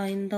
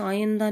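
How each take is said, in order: First: Said in the usual way. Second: आइंदा as aa-YAN-da; mispronounced आइंदा. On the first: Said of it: "आइंदा होता है". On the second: Shown as a demonstration. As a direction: say आइंदा with 'yan' for 'in'. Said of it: "आइंदा नहीं होता". (आइंदा को 'आयंदा' बोलें)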